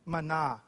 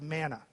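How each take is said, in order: First: The word is said with a Hebrew pronunciation. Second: The word is said with an English pronunciation. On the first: "This is the Hebrew word manna" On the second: "we tend to pronounce it as manna"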